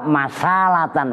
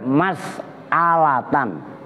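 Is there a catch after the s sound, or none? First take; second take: none; catch. First: The s runs smoothly into the next vowel. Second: The s closes the syllable before a glottal catch. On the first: The speaker calls it wrong. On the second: The speaker calls it right. "tuh yang benar mas'alatan ... setelah sin sin dibaca sukun"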